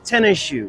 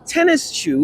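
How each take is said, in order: First: The final S merges into the sh sound. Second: The final S of tennis is said separately.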